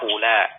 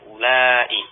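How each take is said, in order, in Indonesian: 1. Kata ini berakhir dengan vokal pendek yang diucapkan singkat. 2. Kata ini berakhir dengan vokal panjang yang diucapkan lama. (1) "maksuratan dengan dibaca pendek" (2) "mamdudatan dibaca dengan panjang"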